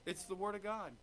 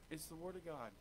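First: Said in the usual way. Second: Much softer, lower repeat; hushed repeat. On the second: Real, not acted. Preacher to congregation, quietly repeating the point. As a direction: let it sink in, almost hushed.

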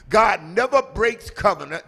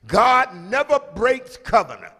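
No difference in how they are said.

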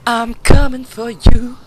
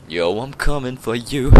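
First: High, loud and slow threat; loud taunt. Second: Said in the usual way. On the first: Real, not acted. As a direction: bellow it slowly at the enemy. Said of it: "repeated after plain take". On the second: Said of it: "repeated louder".

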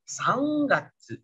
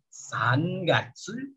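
First: "Sangatsu" slowly as "Sang-gatsu"; n read as ng. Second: "Sangatsu" slowly, as "San-gatsu"; as written, with n. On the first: Teacher shows the reading, long ng in "Sangatsu". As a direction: hold a nasal ng in "Sangatsu". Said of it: "bacanya Sangatsu". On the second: Teacher reads the written form, n kept in "Sangatsu". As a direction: keep n and g apart in "Sangatsu". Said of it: "Tulisannya Sangatsu". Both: Shown as a demonstration.

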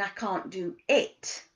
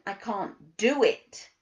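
First: "it" set apart at the end and stressed; slow down and land on "it". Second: "do" punched louder and drawn out; stress on DO. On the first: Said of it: "the emphasis is on your behaviour". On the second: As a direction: lean slowly and hard on "do". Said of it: "the emphasis is on your capability". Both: Shown as a demonstration.

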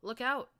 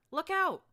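First: High, loud scream with a rising end; screamed warning. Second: Very high, very loud yell with a falling end; yelled warning. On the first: Narrator warns Glory of the scorpion, loud high scream. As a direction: scream it to save your friend. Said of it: "I screamed". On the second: Narrator warns Glory of the striking tail, very loud. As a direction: bellow it to save her head. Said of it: "I yelled". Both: Acted.

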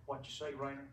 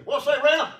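First: Said in the usual way. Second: Loud, high call to a buddy; raised, punchy hail; hollered greeting. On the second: Shown as a demonstration. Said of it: "I always say".

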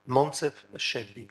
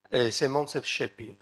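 First: Slowed for an audience member taking the name down; slow clear repeat. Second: Said in the usual way. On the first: Shown as a demonstration. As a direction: repeat the name slowly so it can be noted. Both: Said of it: "Quel est l'éditeur".

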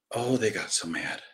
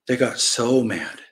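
First: Low, softer remark; understated aside. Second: Slow, stretched "so mad"; emphatic repeat. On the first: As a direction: drop it down, almost to yourself. First take, understated aside. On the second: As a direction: lean hard and slowly on "so". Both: Real, not acted.

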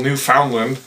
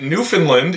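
First: "Newfoundland" with a full "found" in the middle; pronounced as spelled. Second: "Newfoundland" squeezed to sound like "Newfinland"; local pronunciation. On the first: Pointing out the spelling, "Newfoundland" said with a clear "found". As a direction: say "Newfoundland" just as written, "new-found-land". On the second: Naming the East Coast province, local pronunciation of "Newfoundland" as "Newfinland". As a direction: say "Newfoundland" with a reduced middle, no "found". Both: Shown as a demonstration. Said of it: "even though it's spelled Newfoundland".

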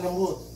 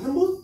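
First: "lembut" said lower and gently; gentle. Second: Said in the usual way. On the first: Shown as a demonstration. ("lembut" diucapkan lembut dan rendah) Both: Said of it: "yang dipakai hatinya orang Jawa, lembut".

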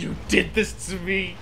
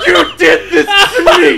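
First: Said in the usual way. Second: Loud, high drawn-out wail through laughter; hammed-up tearful accusation; mock crying. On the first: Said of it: "And he's crying". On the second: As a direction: imitate a drunk brother bawling, cracking up as you do. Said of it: "He's on the ground crying".

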